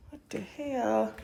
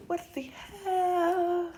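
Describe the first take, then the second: First: Said in the usual way. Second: Slow, high, stretched what the hell; drawn-out disbelief. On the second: Real, not acted. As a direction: drag it out, baffled. Second drawn-out take.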